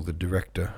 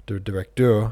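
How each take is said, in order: First: Said in the usual way. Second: "directeur" said the French way; "directeur" in French, stressed on the last syllable; French pronunciation. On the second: Shown as a demonstration. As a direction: say "directeur" with a French ending, louder. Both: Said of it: "make up your mind".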